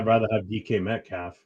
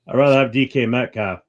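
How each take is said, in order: First: It is said at normal conversational volume. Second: It is said louder, with more force.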